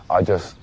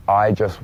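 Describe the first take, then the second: No difference in how they are said.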